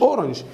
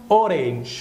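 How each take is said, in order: First: "أورنج" as quick "oranj"; short weak second vowel in "أورنج"; mistaken pronunciation. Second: "أورنج" as "o-reynj" with long second vowel; corrected pronunciation. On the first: Teacher shows what it is not, short "oranj". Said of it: "هي مش أورنج". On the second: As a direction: stretch "أورنج" to end in "-reynj". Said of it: "اسمها أورنج". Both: Shown as a demonstration.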